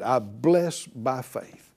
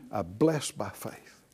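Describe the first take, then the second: First: Slow led declaration. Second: Softer repeat. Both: Shown as a demonstration. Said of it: "Say it out loud again".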